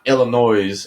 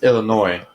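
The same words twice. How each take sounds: First: The final s sound is pronounced. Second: The final s sound is silent. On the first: The speaker calls it wrong. "it's not Illinois" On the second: The speaker calls it right. "Yeah, that's the silent"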